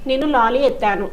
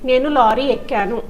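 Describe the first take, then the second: First: The last word has a doubled t sound. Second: The last word has a doubled k sound. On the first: The speaker calls it wrong. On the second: The speaker calls it right.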